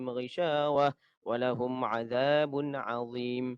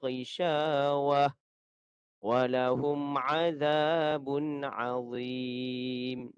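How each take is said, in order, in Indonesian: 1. Dibaca dengan cepat dan bersambung. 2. Dibaca dengan pelan dan perlahan-lahan. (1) "Itu bacaan yang laju" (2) "itu bacaan yang perlahan, slow"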